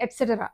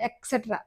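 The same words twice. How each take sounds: First: ఎట్సెటరా starting with "et", not "ek"; corrected pronunciation. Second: ఎక్సెట్రా starting with "ek"; soft "ks" and squeezed "tra" in ఎక్సెట్రా; common mispronunciation. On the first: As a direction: say ఎట్సెటరా as et-set-era. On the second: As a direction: say ఎక్సెట్రా as ek-set-ra. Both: Shown as a demonstration. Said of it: "ఎక్సెట్రా కాదు అది".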